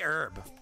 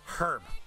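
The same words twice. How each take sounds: First: The word starts without any H sound. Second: The word starts with an audible H sound. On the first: This is the American way of saying it. The speaker calls it wrong. "They say herb. They don't use the H" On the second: This is the British way of saying it. The speaker calls it right. "There's an H in it"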